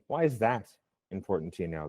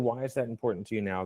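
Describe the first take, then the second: First: The word "that" carries the stress. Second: No word is given special stress. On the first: The listener answers about the thing itself. "Second one, tangible. That" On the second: The listener chooses which meaning to answer. "First one, neutral"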